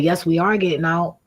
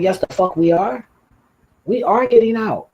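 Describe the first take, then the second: First: Said in the usual way. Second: Retold yell. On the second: Retold insisting on leaving the car.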